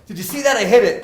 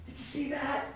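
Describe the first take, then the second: First: Much higher and much louder, crowing; a kid yelling at the coach about his hit; excited kid. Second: Put-on much higher, hushed kid's awe; a kid amazed at his own shot; amazed little kid. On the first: Retold or imitated. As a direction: shout it like a proud five-year-old. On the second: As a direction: breathe it out like a stunned five-year-old. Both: Five-year-old thrilled by his hit.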